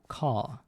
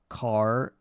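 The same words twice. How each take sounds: First: The final R sound is dropped. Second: The final R sound is pronounced. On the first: "I must forget forget about R" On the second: "instead of saying car"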